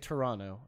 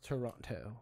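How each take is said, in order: First: The second T sound is dropped. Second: The second T sound is clearly pronounced. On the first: The speaker calls it right. "you have to say Toronto" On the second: The speaker calls it wrong. "It's not Toronto"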